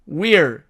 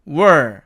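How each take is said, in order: First: The vowel after w is a clear ee sound. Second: The vowel after w is a weak uh sound. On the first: "이 어가 사라지고 we're" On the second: "이 I가 또 약해지면 또 어가 됩니다"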